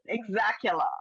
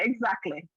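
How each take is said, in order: First: The word ends with an added 'la' sound. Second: The word ends with a plain 'lee' sound. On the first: "As my, my cousin used to say, exactula" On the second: "She don't say exactly"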